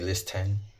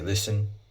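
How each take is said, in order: First: A clear t sound splits it into two parts. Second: The t is silent and it flows smoothly. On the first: The speaker calls it wrong. "I don't say list ten" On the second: The speaker calls it right. "I say listen"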